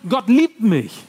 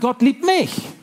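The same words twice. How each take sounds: First: The word liebt carries the main stress. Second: The word mich carries the main stress. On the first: God has loving thoughts toward me. "Er liebt mich" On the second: Amazement that I of all people am loved. "Mich? So habe ich damals gedacht"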